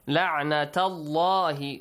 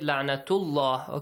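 First: The vowel after the t is 'a'. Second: The vowel after the t is 'u'. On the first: The speaker calls it right. "You should read it with fatha la'nata" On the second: The speaker calls it wrong. "Do not read it"

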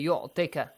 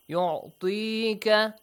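First: The vowel after the t is short. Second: The vowel after the t is held long. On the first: The speaker calls it wrong. "So don't say yu'tika. Yu'tika is wrong" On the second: The speaker calls it right. "which is ya'i maddi"

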